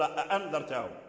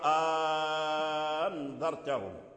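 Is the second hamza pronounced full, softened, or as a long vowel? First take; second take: full; long vowel. First: Both glottal stops are pronounced in full. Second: The second glottal stop becomes a long a vowel. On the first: This is the original form of the word. "هي أصل أأنذرتهم" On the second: This is the substitution reading. "يبدلها حرف مد فيقرأ أأنذرتهم"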